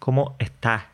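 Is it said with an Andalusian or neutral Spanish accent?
Andalusian. It is said with an Andalusian accent.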